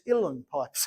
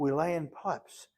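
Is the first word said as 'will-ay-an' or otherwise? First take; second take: otherwise; will-ay-an. First: The first word does not sound like 'will-ay-an'. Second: The first word sounds like 'will-ay-an'. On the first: The speaker calls it right. "it's Uilleann pipes" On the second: The speaker calls it wrong. "And they're not Willayan at all"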